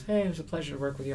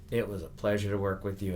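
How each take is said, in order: First: High, quick, superficially nice pleasantry; breezy insincere courtesy, pitched up; polite but not genuine. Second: Sincere, unhurried thanks at a natural pitch; heartfelt, evenly pitched courtesy; genuine. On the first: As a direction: toss it off nicely without really meaning it. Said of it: "he's very nice, but it wasn't, uh, genuine". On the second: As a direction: say it like you truly mean it. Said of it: "but it wasn't, uh, genuine". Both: Retold or imitated.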